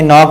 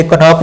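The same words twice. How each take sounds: First: नॉक starts on n, no k; silent-k pronunciation. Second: कनॉक with k sounded before n; wrong pronunciation. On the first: Teacher gives the right reading of knock, silent-k pronunciation. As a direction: drop the first k in नॉक. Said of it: "नॉक पढ़ेंगे". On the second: Teacher shows the misreading of knock, wrong pronunciation. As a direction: voice the silent k in कनॉक. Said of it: "कनॉक नहीं पढ़ेंगे". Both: Shown as a demonstration.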